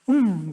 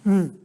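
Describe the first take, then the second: First: It sounds like sudden understanding. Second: It sounds impatient and hurried. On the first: The listener has just realized something. "뭔가 깨달음을 표현할 수도 있는" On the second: The listener wants the other person to hurry up. "빨리 얘기해, 빨리 얘기해. 뭐 이런 느낌"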